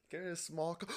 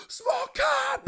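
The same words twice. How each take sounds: First: Said in the usual way. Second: Very high, loud mock squeal; so hyped. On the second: Ice cream worker cheering a small cup order, wildly hyped. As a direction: shriek it in hammed-up delight. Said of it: "just so hyped about everything".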